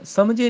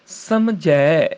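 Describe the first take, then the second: First: ਸਮਝੇ quick, ending in close 'e'; wrong close vowel. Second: ਸਮਝੈ very slow, long open 'ai'; corrected open vowel. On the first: Teacher showing the mistake, ਸਮਝੇ with close 'e'. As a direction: say ਸਮਝੇ as 'samjhay'. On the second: Teacher correcting, ਸਮਝੈ stretched to open 'ai'. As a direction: draw out ਸਮਝੈ, opening the end. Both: Shown as a demonstration. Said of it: "ਸਮਝੇ ਨਹੀਂ".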